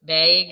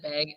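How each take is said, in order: First: "Bag" with a raised vowel, like bayg; "Bag" the Minnesotan way, long ay sound; Minnesota "bag". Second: Said in the usual way. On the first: Shown as a demonstration. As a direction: say "Bag" to rhyme with vague. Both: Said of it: "Bag instead of bag".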